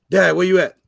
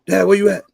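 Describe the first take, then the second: First: Mock son's call. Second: Mock wrong greeting. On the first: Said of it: "I'd be like". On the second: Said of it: "Don't be like".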